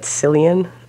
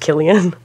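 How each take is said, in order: First: The name begins with an s sound. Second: The name begins with a k sound. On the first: This is how it is said in the speaker's home dialect. The speaker calls it wrong. "where I'm from, you would pronounce that Cillian" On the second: This is how the actor's name is actually said. The speaker calls it right. "but I know it's Killian"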